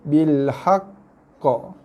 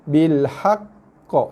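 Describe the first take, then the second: The two takes are said the same way.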